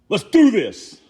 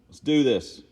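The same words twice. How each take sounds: First: It is said with motivated, pumped-up energy. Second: It is said flatly, without motivating energy. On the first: The speaker calls it right. "that sounded better" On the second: The speaker calls it wrong. "It didn't sound motivational"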